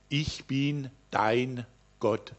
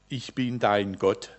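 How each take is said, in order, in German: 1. Der Satz wird mit deutlicher Betonung gesprochen. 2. Der Satz wird ohne besondere Betonung gesprochen.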